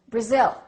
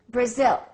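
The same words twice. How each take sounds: First: The first vowel is reduced to a short uh. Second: The first vowel is reduced to a short uh.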